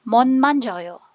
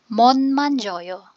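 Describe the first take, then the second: The two takes are said the same way.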